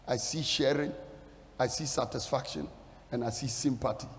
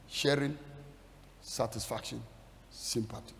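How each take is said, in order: First: Said in the usual way. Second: Fading to a whisper. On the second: Shown as a demonstration. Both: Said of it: "Three things I see there".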